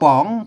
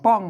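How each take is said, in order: First: The syllable is said with a rising tone. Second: The syllable is said with a falling tone. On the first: "จัตวา" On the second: "เสียงโท"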